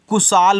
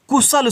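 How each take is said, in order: First: The second syllable has a long vowel. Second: The second syllable has a short vowel. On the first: The speaker calls it wrong. "अगर आप ए से आ का मात्रा और यल से ला बना रहे हो तो कुशाल हो जा रहा है" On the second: The speaker calls it right. "आपने कुशल सुना होगा"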